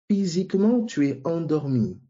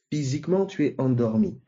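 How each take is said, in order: First: « physiquement » pitched high and stressed, then « tu es endormi » dropping; « physiquement » lancé haut, puis la phrase retombe; emphatic example. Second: Said in the usual way. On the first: Shown as a demonstration. (appuie fort sur « physiquement » pour donner l'exemple) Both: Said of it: "je donne l'exemple".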